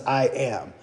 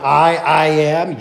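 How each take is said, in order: First: Said in the usual way. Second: "I, I am" with the I said twice, slow and deliberate; emphatic doubled pronoun. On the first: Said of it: "Kind of like". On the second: Shown as a demonstration. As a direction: lean on the doubled "I", slowly. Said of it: "the unnecessary additional pronoun in there".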